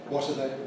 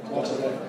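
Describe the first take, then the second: The two takes are said the same way.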